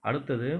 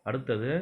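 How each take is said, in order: The two takes are said the same way.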